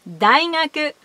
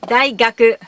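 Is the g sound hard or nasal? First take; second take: nasal; hard. First: The middle consonant is a nasal ng. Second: The middle consonant is a hard g. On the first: "ビダゴン。"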